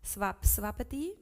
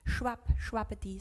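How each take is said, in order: First: "Swap, swapati" starting with a plain S sound; corrected S pronunciation. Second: "Shwap, shwapati" starting with a hushing SH sound; SH onset on both words, "Shwap, shwapati"; mistaken SH pronunciation. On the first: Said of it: "Oh, swap". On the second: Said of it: "None of the first I said". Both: Shown as a demonstration.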